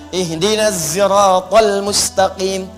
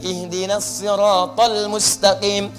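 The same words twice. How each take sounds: First: Siratal begins with a z sound. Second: Siratal begins with an s sound.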